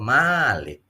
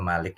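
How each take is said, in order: First: The first vowel is drawn out long. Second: The first vowel is said short. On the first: An owner of lifeless things. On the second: A ruler who governs people.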